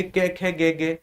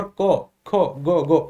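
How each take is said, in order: First: "कै, खे, गे, गे" with e vowels, Haryana style; Haryana touch. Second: "को, खो, गो, गो" with rounded o vowels; Bihar pronunciation. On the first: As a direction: end every letter in e as in Haryana. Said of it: "अगर हरियाणा का touch". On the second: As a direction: end every letter in o as in Bihar. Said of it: "Bihar side से संबंध रखते हैं". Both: Retold or imitated.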